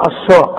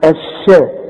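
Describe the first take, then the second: First: الشاء with a thick, dark A; wrong heavy shin. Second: الشاء with a thin, fronted A, like SHE in shed; light shin. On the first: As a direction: say الشاء with SHA as in SHAH. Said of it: "اذا ما تقولش". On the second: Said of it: "هنقول ايه ده؟". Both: Shown as a demonstration.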